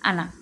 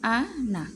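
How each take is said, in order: First: The final vowel is stretched out long. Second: The final vowel is short, not stretched. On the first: The speaker calls it wrong. "টানতাম আমরা আনা" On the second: The speaker calls it right. "আনা টানা যাবে না, আদতে শুধু আ না"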